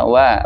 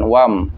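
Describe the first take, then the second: First: The syllable ends openly without an m sound. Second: The syllable ends with closed lips, an m sound. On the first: The speaker calls it right. "wa harusnya wa" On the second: The speaker calls it wrong. "bukan wam"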